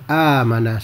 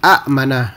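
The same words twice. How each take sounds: First: The first vowel is long with no catch. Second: A glottal catch follows the first vowel. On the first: This is how the word is actually said. "Akhirnya disebut secara amanah saja" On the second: This is the underlying form with two hamzas. "sepatutnya dia jadi amanah. Jadi dua hamzah itu"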